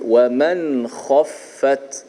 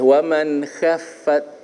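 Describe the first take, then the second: First: The kha sound is thick and heavy. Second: The kha sound is thin and light. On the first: The speaker calls it right. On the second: The speaker calls it wrong.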